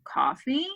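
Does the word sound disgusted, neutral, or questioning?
questioning. It is said with a questioning, rising tune. The speaker is offering or asking about coffee.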